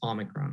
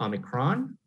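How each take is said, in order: First: The stress is on the first syllable. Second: The stress is on a later syllable. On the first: The speaker calls it right. "we see a lot of this stress of the word at the opening of the word, the first syllable of the word. So that's why it's Omicron" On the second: The speaker calls it wrong. "A lot of people have been pronouncing Omicron"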